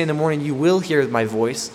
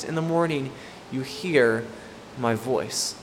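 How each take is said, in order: First: "will" leaned on and lifted, as the rejected wording; stress on "will". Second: "hear" set apart by pauses, the line falling away; deliberate pauses. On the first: Preacher showing what David doesn't say, stress on "will". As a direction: punch the word "will". Contrasting wrong wordings with the verse. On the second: Preacher restating David's true words, pausing around "hear". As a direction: break it up firmly: "In the morning", "you hear", "my voice". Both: Shown as a demonstration.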